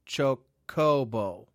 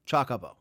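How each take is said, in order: First: The vowels are long o sounds, like hobo. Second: The first syllable sounds like 'choc' in chocolate. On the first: "Like hobo" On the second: "as in chocolate"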